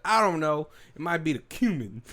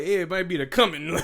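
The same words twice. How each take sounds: First: "cumin" said as KYOO-min; imitated drawled line, "cumin" with a y-glide, KYOO-min; Jeff Bridges. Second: "cumin" said as KUM-in, higher and amused; odd pronunciation. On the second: Retold or imitated. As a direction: imitate the line with a short first vowel, KUM-in in "cumin". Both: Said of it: "he said it in the weirdest way".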